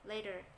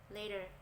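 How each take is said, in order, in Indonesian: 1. Kedua kata ini disambung menjadi satu. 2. Kedua kata ini disambung menjadi satu.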